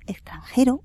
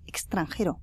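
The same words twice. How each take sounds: First: The x sound is relaxed and soft. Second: The x sound is crisp and clipped. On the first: This is how everyone says it. "Todo el mundo dice extranjero" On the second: This is one particular man's distinctive way of saying it. "y él pronuncia extranjero"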